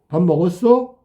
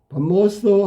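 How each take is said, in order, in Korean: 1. 끝에서 음높이가 올라가. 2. 끝에서 음높이가 내려가. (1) "뒤에가 올라가는 의문문처럼 소리가 높아지면" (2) "평서문이면 끝이 아래로 떨어진단 말이야"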